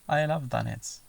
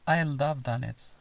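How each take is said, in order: First: The words are run together and shortened. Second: The words are run together and shortened.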